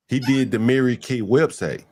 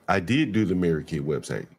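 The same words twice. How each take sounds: First: Said in the usual way. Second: Lower, softer quote with did pushed hard; mock his claim by hitting did; stress on did.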